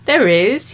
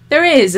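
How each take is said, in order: First: Teasing, playful lilt rising up; coquettish. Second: Wicked echo, falling and firm; a wicked mocking echo. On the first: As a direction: toy with her, enjoying the game. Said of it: "he sounded coquettish". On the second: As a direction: throw his words back at him. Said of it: "Olivia repeated, his own words back to him". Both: A narrator's reading.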